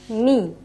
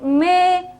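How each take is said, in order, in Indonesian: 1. Vokalnya terdengar seperti 'ee'. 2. Vokalnya terdengar seperti 'eh'. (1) "Tapi kalau kasrahnya benar" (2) "bukan me"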